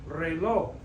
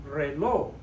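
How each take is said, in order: The two takes are said the same way.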